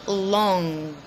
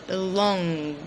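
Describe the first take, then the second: Both takes have the same delivery.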